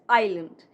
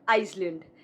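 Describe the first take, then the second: First: No s sound is heard in the word. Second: An s sound is heard in the word. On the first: The speaker calls it right. "S is silent. It's island" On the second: The speaker calls it wrong. "This is not Iceland"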